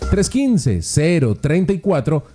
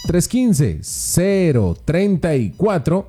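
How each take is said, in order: First: It is said at a normal, quicker pace. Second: It is said slowly and deliberately.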